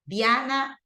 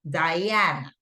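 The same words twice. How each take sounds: First: The name is pronounced the Spanish way. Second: The name is pronounced the English way. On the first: The speaker calls it wrong. "Diana also is in Spanish" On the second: The speaker calls it right. "In English, it's Diana"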